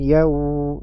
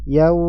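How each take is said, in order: First: The sound is stretched out far too long. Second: The sound flows but is held only briefly. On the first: The speaker calls it wrong. "Ini terlalu panjang" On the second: The speaker calls it right. "Suaranya mengalir"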